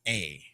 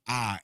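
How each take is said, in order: First: The letter is said like the English 'ay' vowel. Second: The letter is said with an open 'ah' vowel. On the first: The speaker calls it wrong. "and not a a" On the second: The speaker calls it right. "the ah is always a ah"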